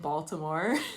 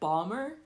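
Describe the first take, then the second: First: The middle t sound is clearly pronounced. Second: The t is dropped and syllables are squeezed. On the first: "I do add the T in Baltimore" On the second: "locals would call it Balmer"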